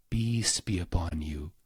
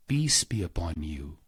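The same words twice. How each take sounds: The two takes are said the same way.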